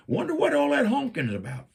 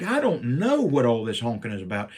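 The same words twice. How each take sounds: First: High, sweet and innocent; mock-innocent high voice; innocent wife. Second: Said in the usual way. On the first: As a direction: play the wife pretending she knows nothing. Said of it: "She's like". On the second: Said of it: "I'm like".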